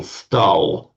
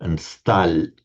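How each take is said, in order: First: Stal with a hard dark l; Russian stal meaning stood. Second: Stal with a soft palatal l; Russian stal meaning steel. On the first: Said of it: "he stood". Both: Shown as a demonstration.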